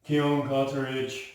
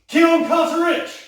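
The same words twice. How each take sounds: First: It is said flatly, without energy. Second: It is said with lively energy. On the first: The speaker calls it wrong. "better than someone comes up" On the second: The speaker calls it right. "we want life"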